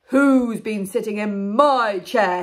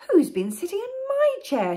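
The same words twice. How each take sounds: First: It is said in a very loud voice. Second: It is said in a medium-sized voice.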